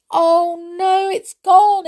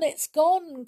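First: High, loud wail near tears; girl wailing, close to tears; crying out in dismay. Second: Put-on girl trailing off, near tears; tearful, fading. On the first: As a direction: cry out as the chair vanishes. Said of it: "cried Molly, almost in tears". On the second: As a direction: let it sink in and trail off sadly. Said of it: "almost in tears". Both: A narrator's reading.

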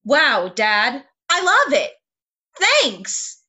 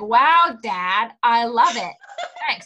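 First: Bright, excited line reading; bubbly reading. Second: Dry, sarcastic thanks. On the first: Pretend. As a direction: read it bubbly and upbeat. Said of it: "yes, please say it". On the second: Retold or imitated. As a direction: say it with heavy sarcasm. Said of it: "so sarcastic to me".

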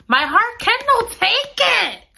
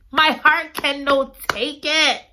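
First: High, slow wail on "My heart cannot take it"; anguished wail. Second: Said in the usual way. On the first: Real, not acted. Reader wailing that the plot breaks her heart. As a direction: cry it out in mock despair.

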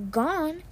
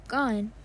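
First: Burke can't believe it: "Gone?"; surprised echo. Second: Said in the usual way. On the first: Acted. Burke echoes news in shock.

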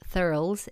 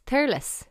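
First: "Thurles" in one syllable, like "thurls"; wrong, as spelt. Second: "Thurles" in two syllables, THUR-less; local pronunciation. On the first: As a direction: rhyme "Thurles" with girls. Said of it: "it's not called". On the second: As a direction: split "Thurles" into THUR-liss. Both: Shown as a demonstration.

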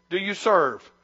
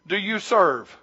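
No difference in how they are said.

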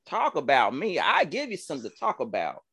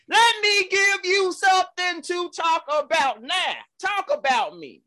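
First: Said in the usual way. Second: Preaching. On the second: Acted. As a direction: preach it up to the rafters. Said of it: "Where's the organ?".

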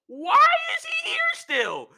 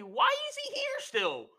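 First: Mock shrieked complaint. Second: Very high, softer squeaky protest; mock whiny complaint. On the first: Imitating Heyman objecting to Sami, escalating high shriek. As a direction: escalate into a squealed protest. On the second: Imitating Heyman objecting to Sami, soft high whine.

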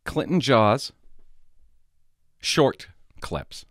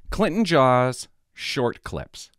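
First: Said in the usual way. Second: Slow, spelled-out name. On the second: Shown as a demonstration. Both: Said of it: "I'm gonna tell you the name of it".

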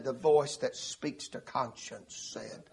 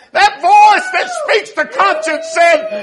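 First: Very soft, low and slow; hushed inner voice. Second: High, loud, slow preaching shout; shouted climax. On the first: Preacher tells of conscience prompting him, hushed and slow. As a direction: drop to a slow, hushed murmur. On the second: Preacher announces what conscience told him, shouted. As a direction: shout it slowly to the back pews. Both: Retold or imitated.

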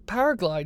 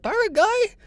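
First: Said in the usual way. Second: Paraglide? squeaked far higher and louder as a question; imitating the Turkish guy. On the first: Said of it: "I was like". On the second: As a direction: mimic the local's eager, much higher Paraglide?. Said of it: "he couldn't even say it".

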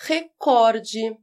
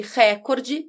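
First: Recorde slowly, weight on the middle COR; stress on second syllable. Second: Recorde slowly, weight on the opening RÉ; stress on first syllable. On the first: Teacher giving the correct pronunciation, slow stress on second syllable of recorde. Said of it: "a pronúncia correta é recorde". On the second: Teacher showing the form needing an accent, slow stress on first syllable of recorde. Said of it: "teria necessariamente o acento". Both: Shown as a demonstration.

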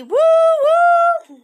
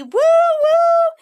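First: High, loud sung ghostly woo-woo; ghastly woo-woo. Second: Louder, higher friendly train whistle woo-woo. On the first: Narrator asks how the ghost train sounds, sung spooky woo-woo. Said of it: "Was it a ghastly woo-woo?". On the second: Ghost train leaves the children, friendly whistling woo-woo. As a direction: toot it like a cheerful train. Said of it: "a friendly woo-woo". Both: Pretend.

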